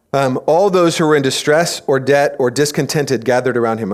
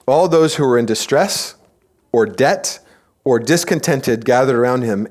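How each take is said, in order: First: Said in the usual way. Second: Pauses before "or debt" and "or discontented"; deliberate rereading. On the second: Shown as a demonstration. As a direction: set apart "distress", "debt" and "discontented" with pauses. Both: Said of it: "I'm gonna read that again".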